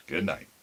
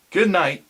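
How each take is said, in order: First: Low, soft answering goodbye; soft good night. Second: Loud, high parting call; called good night. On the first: Mister Crossetti answers the boys' goodbye, low and soft. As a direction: answer gently, almost to yourself. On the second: Will calls good night to the barber as the boys leave, loud and high. Calling goodbye then soft reply. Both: Acted.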